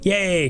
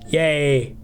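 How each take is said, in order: First: It is said brightly, with cheer. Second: It is said flatly, without cheer. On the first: The speaker calls it right. "I said it a little better that time" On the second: The speaker calls it wrong. "I read it in a bad way"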